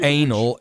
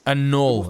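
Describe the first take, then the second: First: The word sounds like 'anal'. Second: The word sounds like 'annul'. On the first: The speaker calls it wrong. "not anal" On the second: The speaker calls it right. "Annul, not anal"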